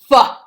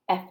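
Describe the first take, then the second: First: An f sound followed by an added vowel. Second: A bare f sound with no vowel after it. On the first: The speaker calls it wrong. "not fa" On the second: The speaker calls it right. "F makes a f, f sound"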